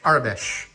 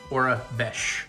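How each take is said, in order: First: The first syllable does not sound like 'aura'. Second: The first syllable sounds like 'aura'. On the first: The speaker calls it wrong. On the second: The speaker calls it right.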